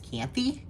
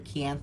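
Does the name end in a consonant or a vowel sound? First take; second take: vowel; consonant. First: The name ends with an added vowel sound. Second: The name ends on a consonant sound. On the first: The speaker calls it wrong. "I thought that was an E sound" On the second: The speaker calls it right. "Kianth is how I found out it's pronounced"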